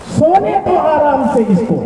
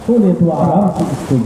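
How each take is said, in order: First: Soaring poetic delivery; verse recitation. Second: Restrained poetic delivery; verse recitation. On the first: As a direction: call the verse out high to the listeners. Verse recited, first take. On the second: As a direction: recite it evenly, without soaring. Verse repeated lower. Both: Acted.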